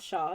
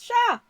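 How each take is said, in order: First: It is said flatly, without emphasis. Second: It is said excitedly, like an exclamation.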